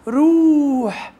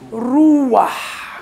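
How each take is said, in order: First: A long 'u' goes straight into the final consonant. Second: A short 'a' comes between 'u' and the final consonant. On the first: "شورق ضم صريح طويل، يبقى روح" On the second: "فيحط بتح ما بين الحيط والضم الطويل، فتنطق ايه احبه روح"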